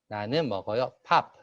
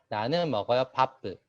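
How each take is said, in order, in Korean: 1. 마지막 p는 터뜨려서 발음해요. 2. 마지막 p 뒤에 모음이 하나 더 붙어요. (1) "영어권 학생들이 초급 학생들은 나는 먹어요 밥 이렇게 발음을 해요" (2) "일본 학생들은 나는 먹어요 바쁘 이런 식으로 하는"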